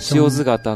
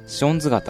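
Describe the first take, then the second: First: It is said in the standard form, shiozu-gata. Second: It is said in the dialect form, shonzu-gata.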